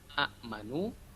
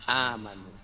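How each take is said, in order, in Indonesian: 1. Hentian glotal ada setelah vokal pertama. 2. Vokal pertama dibaca panjang. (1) "asalnya amanu" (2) "diganti alif menjadi amanu, panjang"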